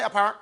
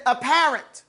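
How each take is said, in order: First: "apparent" said lower, without its accent; wrong inflection. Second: "apparent" with a clear accent on the middle syllable; proper inflection. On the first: Teacher shows class what not to say, unaccented "apparent". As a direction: let "apparent" drop low with no emphasis. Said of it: "You don't say apparent". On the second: Teacher shows class the proper word, accented "apparent". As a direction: stress the PAR in "apparent". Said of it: "You say apparent". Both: Shown as a demonstration.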